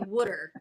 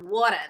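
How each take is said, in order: First: It is said in a New Jersey-style accent. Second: It is said in a Brooklyn-style accent. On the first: "They say water" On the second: "like Brooklyn or Long Island"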